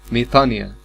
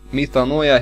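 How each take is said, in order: First: The vowel before the final syllable sounds like 'ee'. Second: The vowel before the final syllable sounds like 'oy'. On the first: The speaker calls it right. "فأنا بنطق مي طا نيا" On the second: The speaker calls it wrong. "راجعة على النطق الخطأ لحرف الأوميكرون إبسلون"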